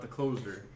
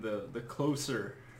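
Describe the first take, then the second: First: The middle consonant is a buzzing z sound. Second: The middle consonant is a hissing s sound. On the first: It means the final act that finishes things. The speaker calls it right. "not The Closer ... like, he's done" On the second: It means bringing people nearer together. The speaker calls it wrong. "people were saying the Closer ... Like, bring us all closer"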